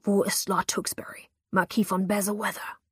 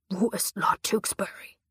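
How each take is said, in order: First: Whispered menace naming the lord; hissed demand. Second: Whispered threat from a knife-wielding man; whispered demand, knife at her throat; menacing whisper. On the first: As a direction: spit the name out in a hiss. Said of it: "zischte er". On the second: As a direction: press the question in a dark whisper. Attacker demands again, whispered. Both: A narrator's reading.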